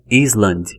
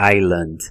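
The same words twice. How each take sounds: First: The S is pronounced in the word. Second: The S is silent in the word. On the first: The speaker calls it wrong. "não é Island ou Iceland" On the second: The speaker calls it right. "é island"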